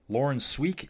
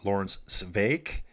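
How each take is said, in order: First: The surname begins with a w sound. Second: The surname begins with a v sound. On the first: The speaker calls it wrong. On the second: The speaker calls it right.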